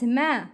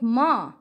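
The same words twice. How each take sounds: First: "ma" with a thin front vowel; light sound. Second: "ma" with a dark back vowel; heavy sound. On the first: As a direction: keep "ma" light, like mae. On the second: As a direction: thicken "ma" toward maw. ("ma" said with a raised back tongue) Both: Shown as a demonstration. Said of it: "not ma".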